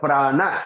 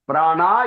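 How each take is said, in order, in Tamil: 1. இறுதி உயிரெழுத்து குறில். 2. இறுதி உயிரெழுத்து நெடில். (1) "நெடில் அல்ல குறில்" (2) "பிராணா இல்ல"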